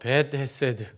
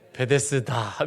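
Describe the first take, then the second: First: Two separate words are said at a normal pace. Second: The words are run together quickly into one.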